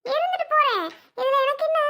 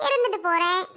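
First: "இருந்துட்டு போறேன்" pitched very high; heightened defiance. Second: Shrugging "இருந்துட்டு போறேன்" near usual pitch; mild defiance. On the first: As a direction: fling it back in a much higher voice. Repeats the retort more forcefully. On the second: Scolded woman accepts her bad name, mildly defiant. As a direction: toss it off without raising the pitch. First take of defiant retort. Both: Acted.

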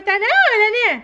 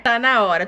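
First: Put-on high toddler voice; baby doll asking if it's time. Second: Said in the usual way. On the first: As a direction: say it like an eager little girl. Same words, mom after.

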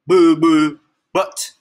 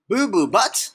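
First: Loud, blurted silly name; silly announced name. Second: Higher, questioning repeat of the name; incredulous echo. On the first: Reader made to name the hippo, loud blurt. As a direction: announce it with a goofy boom. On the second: Reader questions the hippo's name, incredulous echo. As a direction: echo it in disbelief, rising. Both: Pretend.

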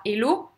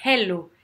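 First: "hello" as "ello", no breath at the start; dropped H. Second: "hello" with a puff of breath on the H; aspirated H. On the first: Teacher showing what not to say, "hello" with silent H. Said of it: "on dit pas hello". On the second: Teacher exaggerating for learners, "hello" with a strong aspirated H. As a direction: breathe out audibly to start "hello". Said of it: "On aspire ici". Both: Shown as a demonstration.

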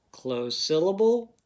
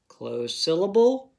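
The two takes are said the same way.

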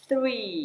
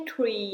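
First: "three" with tongue out and air through the teeth for TH; airy TH. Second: "tree" with a hard t at the start; T instead of TH. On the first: Teacher showing children "three", with airy TH. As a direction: say "three" with a long airy th, not a t. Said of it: "แลบลิ้นแล้วให้ลมมันออกมาตามไรฟัน". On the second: Teacher showing children the mistake, "tree" with a t. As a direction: say "tree" with a t, no airy th. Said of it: "ไม่ใช่ tree นะคะ". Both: Shown as a demonstration.

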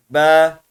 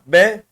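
First: Be with a long, held vowel; loud, drawn-out be; lengthened vowel. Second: Be said short, unextended; short, clean be; short vowel. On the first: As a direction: stretch the vowel of be. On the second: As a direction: keep the vowel of be brief. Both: Shown as a demonstration. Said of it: "uzatma görevi yapıyor".

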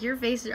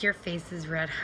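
First: Said in the usual way. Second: Lower, lightly put-on mom voice; mock mom voice. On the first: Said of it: "So she's like". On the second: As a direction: mimic mom in an exaggerated low tone. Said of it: "she didn't say it like that".

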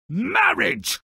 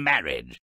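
First: Exclaimed in mock horror. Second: Said in the usual way. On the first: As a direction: cry it out like a doom punchline.

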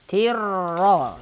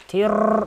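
First: "Тир ра" with a smooth, held doubled r; held r in "Тир ра" without rattling; soft tongue R. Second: "Тир" with an overdone rattling trill; faulty buzzing rolled r in "Тир". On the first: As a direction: rest the tongue softly on the р of "Тир ра". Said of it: "мягко надо ставить язык". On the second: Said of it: "Вот так дребезжание не надо". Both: Shown as a demonstration.

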